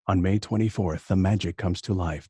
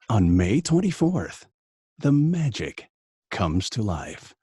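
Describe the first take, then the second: First: The read stays flat on one tone. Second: The read has varied pitch and cadence. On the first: "Give me just a straight flat read" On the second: "your original cadence"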